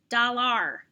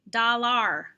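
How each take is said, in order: First: The second syllable sounds like 'ar'. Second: The same.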